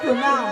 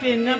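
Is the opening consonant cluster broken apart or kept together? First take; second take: kept together; broken apart. First: The word starts with a joined 'pr' cluster. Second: The word is split as 'pen nam'. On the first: The speaker calls it right. "বলো প্রণাম" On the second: The speaker calls it wrong. "পেন নাম না"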